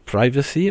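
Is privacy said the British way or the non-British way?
non-British. The word is said with a non-British pronunciation.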